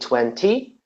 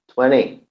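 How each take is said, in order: First: The middle t is clearly pronounced. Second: The middle t is swallowed and dropped. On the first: "probably Brit British people they say twenty" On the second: "You say twenty"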